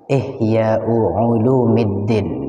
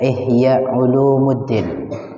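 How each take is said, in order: First: The vowel after the m is i. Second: The vowel after the m is u. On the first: The speaker calls it right. "yang paling pas adalah Ihya Ulumiddin bi kasril mim" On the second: The speaker calls it wrong. "masyhurnya penyebutan kita"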